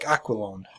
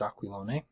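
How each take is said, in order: First: The name is pronounced the American way. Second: The name is pronounced the Italian way. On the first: "it could be Americanized Italian even" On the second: "that would be the Italian pronunciation"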